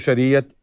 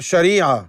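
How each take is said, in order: First: The word ends with a pronounced t sound. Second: The word ends without a final t sound. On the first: This is the Urdu form. "Urdu में बोला जाए तो" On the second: This is the Arabic form. "अरबी में"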